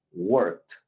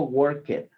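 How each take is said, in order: First: Worked ending on a clean t, no vowel; one syllable worked, final t; worked said the right way, crisp t. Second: Worked with a spoken e before the final t, two syllables; worked as "work-et", the mistake to avoid; wrong extra vowel. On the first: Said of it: "se convierte en una T". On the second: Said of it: "eso no existe". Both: Shown as a demonstration.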